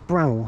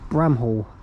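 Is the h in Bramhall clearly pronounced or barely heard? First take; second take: barely heard; clearly pronounced. First: The h sound is barely heard. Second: The h sound is clearly pronounced. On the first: The speaker calls it right. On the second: The speaker calls it wrong.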